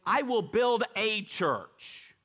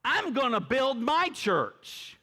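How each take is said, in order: First: Said in the usual way. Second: "my" lifted high and held; "I'm gonna build my church" with "my" sung out high; stress on my. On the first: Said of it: "He didn't say". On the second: Shown as a demonstration. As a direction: lean into "my", slow and owning. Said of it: "He owned it".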